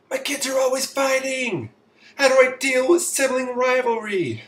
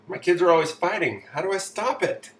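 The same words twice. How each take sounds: First: Very high, loud monotone wail; mock exasperated parent, pitched way up; frazzled parent. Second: Lightly acted parent, raised pitch; quick, higher read with a hint of complaint; re-read parent question. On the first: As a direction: wail it high and loud, dropping only at the end. Acting out a frazzled parent's question. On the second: Re-reading the same question after aside.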